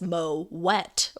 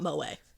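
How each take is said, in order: First: The word ends with a clearly pronounced T. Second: The word ends without any T sound. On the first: The speaker calls it right. "Moet is pronounced with a hard T and not a silent T" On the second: The speaker calls it wrong. "but it's definitely not Moet"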